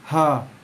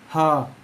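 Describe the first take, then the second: The two takes are said the same way.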